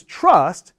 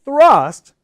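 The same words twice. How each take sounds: First: "trust" slow with a ch-like t; t version. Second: "Thrust" higher and louder, tongue out; clear th. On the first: Teacher drills trust against thrust. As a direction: contrast "trust", no th. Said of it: "versus trust". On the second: Teacher drills thrust against trust. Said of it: "thrust versus trust". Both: Shown as a demonstration.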